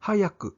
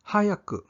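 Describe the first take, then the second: First: Said in the usual way. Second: Whispered. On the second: Shown as a demonstration.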